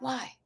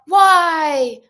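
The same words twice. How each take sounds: First: It is asked gently and softly. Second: It is yelled loudly and harshly.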